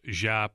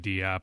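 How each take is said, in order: First: The surname is said as one syllable, 'Jop'. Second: The surname is said as two syllables, 'Dee-op'. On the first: This is the official pronunciation. "The last name is officially pronounced Jop" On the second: This is how many people commonly say it. "a lot of people say Diop"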